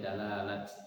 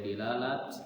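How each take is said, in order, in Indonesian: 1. Vokal pertama adalah a. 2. Vokal pertama adalah i. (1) "boleh dalalat" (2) "boleh dilalat"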